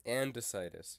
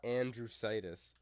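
First: "Andesitis" without any R sound; "Andesitis", second syllable a plain "duh"; correct pronunciation. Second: "andrositis" with an R slipped in; "andrositis", second syllable starting "dr"; wrong pronunciation. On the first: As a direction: say "Andesitis" clearly, AN-duh-SITE-iss. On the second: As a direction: quote the mistake "andrositis", AN-dro-SITE-iss. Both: Shown as a demonstration. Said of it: "It's not andrositis".

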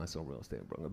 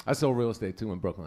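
First: Much lower and softer, muttered; low mumble. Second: Said in the usual way. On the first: Acted. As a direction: drop it low and quiet. Repeats line much lower, quieter.

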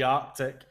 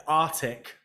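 First: "Arctic" with both c's sounded, ARK-tick; correct Arctic. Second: "Arctic" said as AR-tick, without the first c; misspelt Arctic. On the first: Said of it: "instead of, like, the Arctic". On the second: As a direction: drop the k sound in "Arctic". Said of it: "they spell Arctic wrong". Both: Shown as a demonstration.

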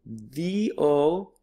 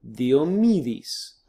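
First: "Diomedes" as thi-o, mi, this, with pauses; "Diomedes" broken up slowly for learners; syllable by syllable. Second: "Diomedes" as one Greek word, thi-o-MI-this, falling end; "Diomedes" whole, in modern Greek sounds; syllables joined. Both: Shown as a demonstration. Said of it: "broken them up into syllables".

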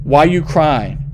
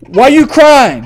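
First: Lower, slow, no longer yelling; calmed-down, drawn-out question; apologetic softened question. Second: Loud, high, drawn-out yell; exasperated shout, pitched up and slow; yelled question. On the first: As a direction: ease off and ask the crying child. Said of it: "I'm sorry. I didn't mean to yell". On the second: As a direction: yell it at a crying child. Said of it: "I didn't mean to yell at you". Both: Pretend.

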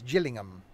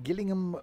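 First: "Gillingham" opened on a soft J sound. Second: "Gillingham" opened on a hard G sound. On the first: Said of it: "as in Jill. So it's Gillingham". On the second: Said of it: "Gillingham with a G as". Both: Shown as a demonstration.

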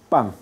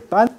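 First: "pan" said like pang; velar final n. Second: "pan" with a tongue-tip n; alveolar final n. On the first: Teacher models coast and island speech, velar "pan". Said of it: "sino como pan". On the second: Teacher contrasts island usage, standard alveolar "pan". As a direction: close "pan" on the gum ridge. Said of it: "no se dice pan". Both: Shown as a demonstration.

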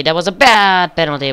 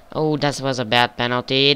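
First: "bad" hit louder and higher; stress on bad. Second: Said in the usual way. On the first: Real, not acted. Commentating his own player's weak penalty, "bad" stressed. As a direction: lean hard on "bad" in "That was a bad penalty".

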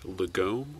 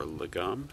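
First: "Lagome" with a long O, la-GOHM; "Lagome" as luh-GOHM, ending on a rise; long O pronunciation. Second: "Lagom" with a short vowel at the end; "Lagom" as luh-GOM, not rhyming with home; alternative pronunciation. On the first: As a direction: say "Lagome" so the end rhymes with home. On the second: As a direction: say "Lagom" without the long O. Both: Shown as a demonstration. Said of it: "however you wanna pronounce that".

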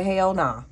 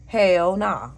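First: Said in the usual way. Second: "Hell nah" repeated noticeably louder, stress on "Hell". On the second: Retold or imitated. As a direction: punch the second "Hell" harder, falling at the end. Telling someone off.

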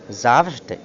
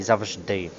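First: ЗАВЖДИ with the beat on ЗАВ; first stress variant. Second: ЗАВЖДИ with the beat on ДИ; second stress variant. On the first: Teacher showing one allowed variant, stress on first syllable. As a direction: punch the front of ЗАВЖДИ. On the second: Teacher showing other allowed variant, stress on last syllable. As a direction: land on the end of ЗАВЖДИ. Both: Shown as a demonstration. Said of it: "мають подвійний склад".

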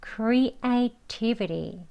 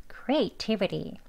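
First: "creativity" relaxed, the t flapped to an r, as "creatibiri"; slow native-style "creativity" with a tapped t; soft flapped t. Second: "creativity" quick and softer, "kretibri"; quick native "creativity"; fast flapped. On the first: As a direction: loosen the tongue on "creativity", "-viri" at the end. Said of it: "부드럽게 합니다". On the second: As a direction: rattle off "creativity" fast and relaxed. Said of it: "빨리 발음하면". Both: Shown as a demonstration.

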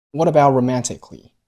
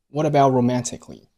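First: About with silent t, a little louder; unreleased t in about. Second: What about linked, t of about silent; unreleased t in about. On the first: Teacher repeating what about with lost plosion. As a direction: swallow the t of about. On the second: Teacher demonstrating lost plosion in about. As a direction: close about without releasing the t. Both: Shown as a demonstration. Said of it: "about结尾的t出现了失去爆破".

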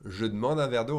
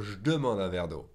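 First: "Je demande un verre d'eau" as "je d'mande"; E dropped from demande. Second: "je demande un verre d'eau" as "j'demande"; E dropped from je. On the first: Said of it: "or the E from demande". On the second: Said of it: "skip the E from the je". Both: Shown as a demonstration.

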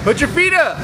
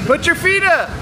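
Both takes have the same delivery.

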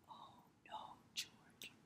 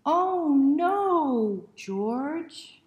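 First: Soft breathy whispered run-through; whispered rehearsal. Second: High loud dramatic cry; loud exclamation. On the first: Reader quietly rehearsing the refrain, in a whisper. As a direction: hush it before the big cry. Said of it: "Get ready". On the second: Reader leading children in the big refrain, loud and high. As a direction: belt it out with mock dismay. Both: Shown as a demonstration.

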